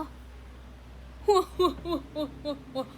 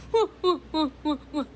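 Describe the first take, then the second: First: Breathy huffing hua-hua, half laughing; hua-hua panting sound. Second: Punchier, louder huffing hua-hua; louder hua-hua huffs. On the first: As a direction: puff out the hua-hua tone in short huffs. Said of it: "gimana sih hua-hua?". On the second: Trying the hua-hua tone again for viewers, huffed louder. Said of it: "Gitu ya". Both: Shown as a demonstration.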